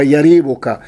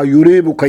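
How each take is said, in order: First: Yariibuka, first syllable said "ya"; fatha on the ya. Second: Yuriibuka, first syllable said "yu"; damma on the ya. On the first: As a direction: say yariibuka with a short a after the y. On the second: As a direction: say yuriibuka with a short u after the y. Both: Shown as a demonstration. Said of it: "bifatxi lyaa'i wa dammiha".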